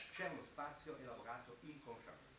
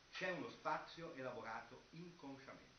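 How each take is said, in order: No difference in how they are said.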